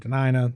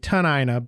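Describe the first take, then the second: First: The name begins with a D sound. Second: The name begins with a T sound. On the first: This is the people's own name for themselves. "We're Denina" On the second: This form came from translation through other languages. "the T and the D sound get switched"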